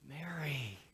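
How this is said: It sounds tender and loving.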